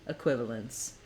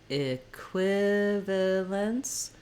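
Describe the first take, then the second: First: The word is said quickly, at normal speed. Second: The word is said slowly, syllable by syllable. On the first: "the fast version of the word" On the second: "say each syllable slowly"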